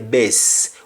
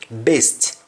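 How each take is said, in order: First: The final T sound is dropped. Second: The final T sound is pronounced. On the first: "we say best" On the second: "We have words like best"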